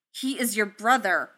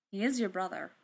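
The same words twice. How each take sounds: First: Louder, insistent snap; snapping. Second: Said in the usual way. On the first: A narrator's reading. Tony snapping at Thor about his brother, louder. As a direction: snap it with force. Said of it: "he snapped".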